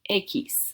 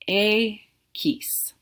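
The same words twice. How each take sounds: First: It is said quickly. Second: It is said slowly and carefully. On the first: "I'll say it faster" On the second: "X sounds like this"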